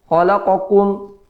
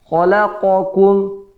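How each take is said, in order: No difference in how they are said.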